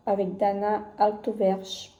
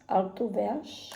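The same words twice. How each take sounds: First: Said in the usual way. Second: Slow, careful sounding-out of "Altuverge"; unsure pronunciation. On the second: Shown as a demonstration. Vlogger slowly tries a designer's name for viewers, unsure. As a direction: spell out "Altuverge" syllable by syllable, unsure. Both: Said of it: "Je sais pas comment ça se prononce".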